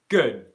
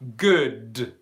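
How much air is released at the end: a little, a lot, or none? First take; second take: none; a lot. First: The final D is held with no air released. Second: The final D is released with a strong burst. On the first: The speaker calls it right. "stopped airflow, but then no airflow has come out" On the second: The speaker calls it wrong. "I do not say good"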